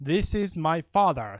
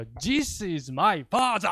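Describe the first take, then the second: First: It is said with native English pronunciation. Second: It is said with a Japanese katakana-style accent.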